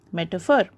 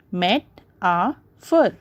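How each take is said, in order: First: Said in the usual way. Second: "met, a, fur" with pauses between; "met, a, fur" beat by beat; three separate syllables. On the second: Shown as a demonstration. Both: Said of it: "there are three syllables in metaphor".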